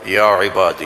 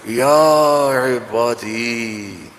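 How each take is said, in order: First: It is said plainly, like a recitation. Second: It is said with a loving, tender tone.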